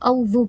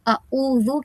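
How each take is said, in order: First: The opening vowels merge into one au sound. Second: A short separate a starts the word. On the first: The speaker calls it wrong. "ये गलतियां होती है" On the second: The speaker calls it right. "यहाँ पे हमजा के ऊपर ज़बर है"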